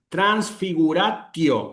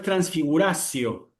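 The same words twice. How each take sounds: First: The t before the ending is a hard t. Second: The t before the ending sounds like an s. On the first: "una T fuerte" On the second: "Cuidado que no es transfiguratio, no es la C"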